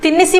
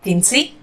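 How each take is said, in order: First: The middle 'i' vowel is fully pronounced. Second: The middle 'i' vowel is dropped. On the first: "जब तिन्निसी बोलेंगे" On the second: "तो इधर ई मात्रा skip करेंगे, बोलेंगे तिन्सी"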